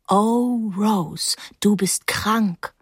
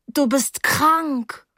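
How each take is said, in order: First: Recited from memory. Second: High, slowly drawn-out quotation; ghastly grin. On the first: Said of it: "Paula hatte es mir vor Jahren vorgelesen". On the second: Girl quoting Blake at the bandaged boy, ghastly grin. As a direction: stretch it out high through an awkward grin. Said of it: "sagte ich wieder mit grausigem Grinsen". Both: A narrator's reading.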